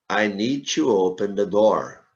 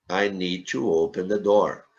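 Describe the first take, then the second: No difference in how they are said.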